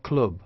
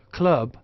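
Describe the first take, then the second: First: CLUB with the rounded oo of "put"; Northern "club", vowel as in "foot"; Northern English pronunciation. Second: CLUB with the open "uh" vowel of southern "cup"; RP pronunciation. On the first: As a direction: say "club" like "cloob" with a short oo. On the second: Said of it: "R P club". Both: Shown as a demonstration.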